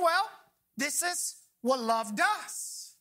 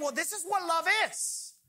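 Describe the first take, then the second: First: Slow, with weight landing on "does."; stress on does. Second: Said in the usual way. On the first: Shown as a demonstration. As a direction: draw it out and lean into "does.". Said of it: "and saying". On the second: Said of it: "between approaching love and saying".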